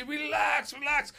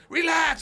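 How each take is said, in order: First: High, loud yell of relax; shouting relax. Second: High, loud full yell of "Relax"; shouted relax. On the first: Coach shouting relax at a fighter going too hard. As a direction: yell it at the fighter across the gym. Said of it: "I say". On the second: Coach screaming "Relax" at Habib, who only goes harder. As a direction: scream "Relax" at a fighter who won't calm down. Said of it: "and I'm going". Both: Retold or imitated.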